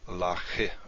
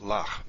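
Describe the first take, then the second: First: The word ends with an extra short vowel sound. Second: The word ends on the consonant, no vowel after. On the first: The speaker calls it wrong. "not lache" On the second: The speaker calls it right. "So it's pronounced lach"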